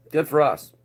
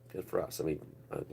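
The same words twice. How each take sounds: First: Sarcastic. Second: Much softer, lower repeat; muttered aside. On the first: Cheering his own country, dripping with sarcasm. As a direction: say it with a mocking grin. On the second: Repeating his jab to the viewers under his breath. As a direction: drop it to a dry mutter. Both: Shown as a demonstration.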